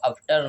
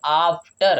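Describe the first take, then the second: First: "after" with a short uh, as uf-ter; wrong short-a version. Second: AFTER opened with a long AA; correct long-aa version. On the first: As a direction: mispronounce "after" with a clipped first vowel. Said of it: "हम इसको after नहीं बोलेंगे". ("after" को छोटे अ से, अफ्टर) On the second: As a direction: say "after" as AAF-ter, firmly. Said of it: "हम इसको क्या बोलेंगे". ("after" लंबे, बड़े आ से आफ्टर) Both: Shown as a demonstration.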